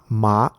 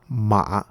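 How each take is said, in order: First: The pitch rises from middle to high. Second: The pitch dips low then rises. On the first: "the second one the going up or rising tone" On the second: "the third one is a down and up tone"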